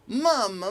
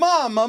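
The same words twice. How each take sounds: First: The voice is thin and bright. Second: The voice is loud and yelled out. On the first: "a little bit thinner... It has a little more brightness to it" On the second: "just going mama, mama, mama, and yelling it out"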